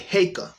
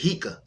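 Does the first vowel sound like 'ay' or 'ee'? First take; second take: ay; ee. First: The first vowel sounds like 'ay'. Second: The first vowel sounds like 'ee'. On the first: The speaker calls it right. "we're pronouncing the E as in uh, cake" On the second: The speaker calls it wrong. "he's pronouncing the E like the English letter E"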